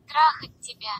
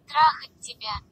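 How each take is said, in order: Both takes have the same delivery.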